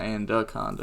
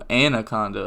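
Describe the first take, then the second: First: The name is said with an extra d sound. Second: The name is said without an extra d sound. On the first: The speaker calls it wrong. "not Anaconda effect ... there was no D right here" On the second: The speaker calls it right. "Oh, Anaconda effect"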